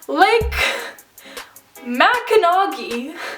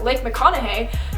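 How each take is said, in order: First: The name is said as 'Mackinac'. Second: The name is said as 'McConaughey'. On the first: "I thought it was pronounced Lake Mackinac" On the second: "this lake is called Lake McConaughey"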